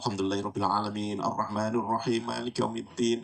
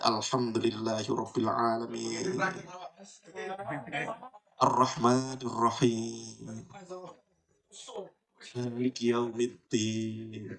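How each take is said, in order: First: The verses run together quickly without stopping. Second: Each verse is followed by a long pause. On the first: The reciter does not savor the replies to each verse. The speaker calls it wrong. "bacanya cepat" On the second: The reciter savors the reply to each verse. The speaker calls it right. "setiap satu ayat ... Berhenti satu, satu, satu"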